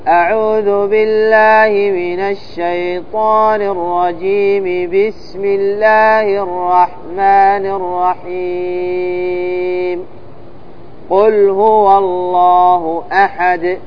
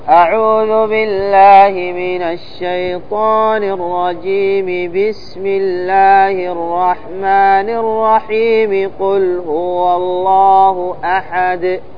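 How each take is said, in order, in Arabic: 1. الجملتان الأولى والثانية متصلتان، ثم يكون الوقف. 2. الجمل الثلاث متصلة بلا وقف. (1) "وصل الاستعاذة بالبسملة والوقف عليها ثم الابتداء بأول السورة" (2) "وصل الجميع"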